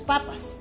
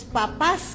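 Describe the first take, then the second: First: The stress is on the first syllable. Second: The stress is on the second syllable. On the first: It refers to potatoes. The speaker calls it wrong. "como no puso la tilde, se leía" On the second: It refers to the parents. The speaker calls it right. "felicitaciones a sus papás, quería"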